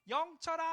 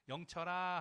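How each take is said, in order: First: The name is called at a high, sharp pitch. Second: The name is called at a low, calm pitch. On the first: The speaker is irritated and the listener gets tense. The speaker calls it wrong. "갑자기 뭘로 올라가냐면 시로 올라가요" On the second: The speaker is calm. The speaker calls it right. "밑에는 영철아 하다가"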